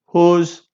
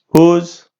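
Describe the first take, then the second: No difference in how they are said.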